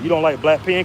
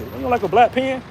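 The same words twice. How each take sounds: First: Said in the usual way. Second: High incredulous re-ask; pitched-up retold question. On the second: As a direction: repeat the question in a higher, baffled voice.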